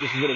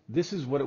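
First: The voice is heard over crowded background noise. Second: The voice is heard with a quiet background. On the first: "now we're in a crowded room, a noisy environment" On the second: "if you are in a quiet room"

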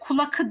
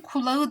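First: The word keeps a hard k before the ending. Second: The word has a soft g before the ending. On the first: The speaker calls it wrong. "kulakı diyemeyeceğim" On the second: The speaker calls it right. "K, yumuşak G'ye dönüşmüş"

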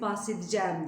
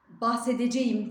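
First: The word is said in its natural reduced form. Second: Every letter of the word is pronounced as spelled. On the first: "bahsedeceğim diye okumak" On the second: "bahsedeceğim diye yazıp"

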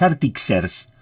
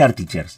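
First: The middle consonant is pronounced as 'ks'. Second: The middle consonant is pronounced as 'ch'. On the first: "Porque es Artixers el programa" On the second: "Le voy a decir Artichers"

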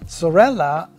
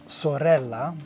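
First: The R is said plainly, without rolling. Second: The R is rolled with a trill.

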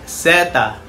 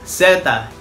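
First: The word begins with an s sound. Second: The same.

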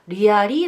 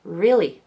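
First: The word is said with three syllables. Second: The word is said with two syllables. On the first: The speaker calls it wrong. "リアリーだと三音節になっちゃいます" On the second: The speaker calls it right. "二音節です"

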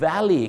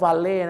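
First: The word ends with an 'ee' vowel sound. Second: The word ends with an 'ay' vowel sound. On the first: The speaker calls it right. "คำนี้ก็ออกเสียงว่า" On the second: The speaker calls it wrong. "ที่จริงนะคำนี้ไม่ได้ออกเสียงว่า"

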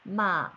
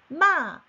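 First: The pitch dips low and then rises. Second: The pitch falls sharply from high to low. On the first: It means horse. "말이 됩니다" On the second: It means to scold. "욕하다가 됩니다"

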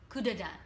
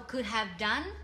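First: The words are reduced and run together. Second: The words are said fully and separately.

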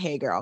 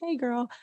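First: The greeting does not sound warm or friendly. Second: The greeting sounds warm and friendly. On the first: It is an approach to avoid. The speaker calls it wrong. "but not hey girl, because we don't do that" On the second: It is a casual invitation to chat. The speaker calls it right. "The nice kind of hey girl"

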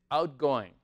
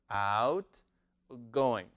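First: The word is said quickly and smoothly. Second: The word is said slowly and carefully.

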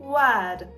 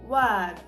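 No difference in how they are said.

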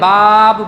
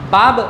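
First: The vowel is drawn out long. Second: The vowel is short and quick. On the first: The speaker calls it wrong. "তাহলে মাঝখানে একটা আলাদা আলিফের অবতারণা করলাম" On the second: The speaker calls it right. "বাব না বলে"

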